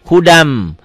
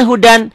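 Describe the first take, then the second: First: "Hudam" with the final n turned into a held, humming m; assimilated reading. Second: Said in the usual way. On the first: Shown as a demonstration. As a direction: close "Hudam" on a long nasal m. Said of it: "bacanya gimana". ("Hudam" dibaca dengan n melebur jadi m berdengung) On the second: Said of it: "bacanya gimana hudan".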